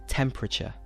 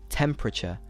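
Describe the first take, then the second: No difference in how they are said.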